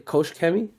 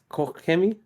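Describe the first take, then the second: First: The first syllable ends in a 'sh' sound. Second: The first syllable ends in a throaty 'ch' sound. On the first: The speaker calls it wrong. "Some people say" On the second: The speaker calls it right. "but it's really pronounced"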